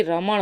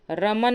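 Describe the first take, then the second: First: रमण ending in retroflex ṇ; correct form. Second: रमन ending in dental n; plain n at the end of रमन; wrong form. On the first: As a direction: curl the tongue to end रमण. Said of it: "बल्कि रमण होता है". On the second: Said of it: "रमन नहीं होता". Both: Shown as a demonstration.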